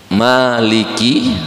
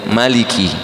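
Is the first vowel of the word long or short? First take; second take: long; short. First: The first vowel is drawn out long. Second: The first vowel is kept short. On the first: It means the owner. "ada yang panjang" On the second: It means the king. "ada yang yang pendek"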